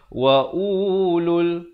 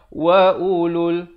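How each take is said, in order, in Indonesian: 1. Waw yang tertulis dibunyikan, sehingga vokalnya panjang. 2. Waw yang tertulis tidak dibunyikan, vokalnya pendek. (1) "Jangan pula di sini kita baca wa ulul, salah" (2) "Dia kena baca wa ulul. Jadi seakan-akan waw itu tidak ada"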